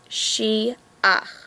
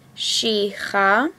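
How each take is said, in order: First: The final vowel comes before the ch sound. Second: The final vowel comes after the ch sound. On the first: The speaker calls it right. "The correct way to say it is she-ach" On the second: The speaker calls it wrong. "We're not reading it she-cha"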